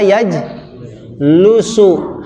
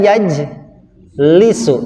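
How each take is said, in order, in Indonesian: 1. Vokal setelah l adalah u. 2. Vokal setelah l adalah i. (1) "Tidak bisa yajlusu" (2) "selamanya dibaca yajlisu"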